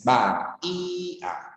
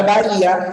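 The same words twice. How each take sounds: First: "Ba, i, a" softly, each vowel apart; split into syllables. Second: Said in the usual way. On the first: Shown as a demonstration. Teacher showing bahía has three syllables, split syllables. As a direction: break "Ba, i, a" into three separate beats. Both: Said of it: "hay tres sílabas".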